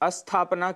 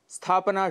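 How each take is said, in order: First: It begins with an extra vowel before s. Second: It begins directly with the s cluster. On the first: The speaker calls it wrong. "अशुद्ध उच्चारण हम अस्थापना कर देते हैं" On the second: The speaker calls it right. "स्थापना शुद्ध उच्चारण है"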